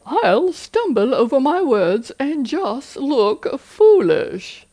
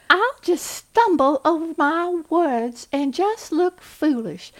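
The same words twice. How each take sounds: First: Higher and louder, slow and silly; a goofy put-on voice; funny voice. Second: Much higher, louder, slow Southern belle accent; hammed-up Southern belle accent; Scarlett O'Hara. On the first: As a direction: poke fun at the worry in a cartoonish voice. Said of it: "use the funny voice technique". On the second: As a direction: flutter it like a helpless Southern belle. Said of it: "I love Scarlett O'Hara". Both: Shown as a demonstration.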